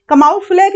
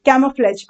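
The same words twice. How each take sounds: First: कमाओफ्लेज said with ka-ma-o, a split vowel after k; mock the wrong कमाओफ्लेज as kuh-MAH-o-flaj; wrong pronunciation. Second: कैमोफ्लेज said as KAM-o-flaj, stress on the first syllable; correct pronunciation. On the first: Teacher shows students the wrong way, saying कमाओफ्लेज as ka-ma-o-flaj. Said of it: "कमाओफ्लेज नहीं है ये". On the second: Teacher gives students the right way, saying कैमोफ्लेज as KAM-uh-flaj. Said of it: "pronunciation है इसका कैमोफ्लेज". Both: Shown as a demonstration.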